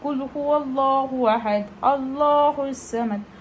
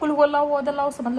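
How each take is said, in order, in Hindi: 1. यह आयत धीरे-धीरे और ध्यान से पढ़ी गई है। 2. यह आयत जल्दी-जल्दी और हड़बड़ी में पढ़ी गई है। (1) "ये होता है" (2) "ऐसे पढ़ लेते हैं"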